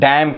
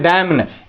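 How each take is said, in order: First: The word ends on the m sound. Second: An extra n sound follows the m. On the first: The speaker calls it right. "Silent हो गया, इसको क्या कहेंगे हम, डैम कहेंगे" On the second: The speaker calls it wrong. "डैम ने लोग बोलते हैं"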